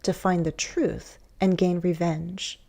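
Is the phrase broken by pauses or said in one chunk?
broken. The phrase is split by a pause. "but you might also"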